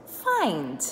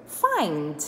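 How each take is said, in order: Both takes have the same delivery.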